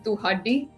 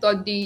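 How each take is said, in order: First: The word is said longer, in three syllables. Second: The word is said short, in two syllables. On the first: The speaker calls it right. "the word's actually tuhaddi" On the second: The speaker calls it wrong. "I always said toddy"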